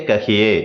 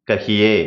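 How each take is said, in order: Both takes have the same delivery.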